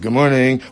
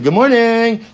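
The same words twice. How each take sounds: First: It is said flatly, without any excitement. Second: It is said warmly, with lively excitement. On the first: This is the greeting as it was actually heard. "Why doesn't he say it with excitement?" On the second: This is the friendly greeting that was expected. "He didn't say good morning"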